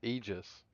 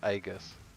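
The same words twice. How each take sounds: First: It uses the standard dictionary pronunciation. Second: It is pronounced the way it is spelled. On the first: This is how the word is properly said. The speaker calls it right. "which is pronounced Aegis" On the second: This is how the gaming community says it. The speaker calls it wrong. "pronounced just as you read it"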